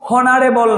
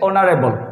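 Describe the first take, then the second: First: The word starts with an audible h sound. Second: The word starts directly with a vowel sound. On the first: The speaker calls it wrong. "এটা কিন্তু হনারেবল নয়" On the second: The speaker calls it right. "এটা হচ্ছে অনারেবল"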